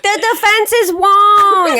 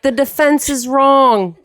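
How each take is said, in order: First: "The defense is Wong" said high and slowly, with "Wong" in place of "wrong"; mom's mispronunciation. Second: Slow, high-pitched movie line with a lightly put-on New York accent. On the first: Retold or imitated. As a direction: mimic mom getting "wrong" wrong as "Wong". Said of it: "she's trying to do the New York accent". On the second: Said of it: "everybody was like".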